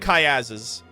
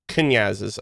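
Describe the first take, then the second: First: The N sound is left out of the word. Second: The N sound is clearly pronounced in the word. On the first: The speaker calls it wrong. "I don't know if the N is silent. I'm just gonna say Kayazes" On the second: The speaker calls it right. "Oh, it's Kanyazes. ... It's not silent"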